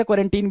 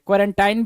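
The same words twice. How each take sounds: First: क्वारंटीन ending like "seen"; last syllable of क्वारंटीन said "teen"; "-teen" pronunciation. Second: क्वारंटाइन ending like "line"; last syllable of क्वारंटाइन said "tine"; "-tine" pronunciation. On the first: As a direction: give क्वारंटीन a long "ee" at the end. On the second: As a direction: give क्वारंटाइन an "eye" vowel at the end. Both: Shown as a demonstration. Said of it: "pronunciation का बहुत ज़्यादा".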